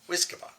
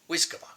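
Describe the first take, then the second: No difference in how they are said.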